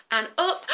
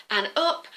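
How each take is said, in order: Both takes have the same delivery.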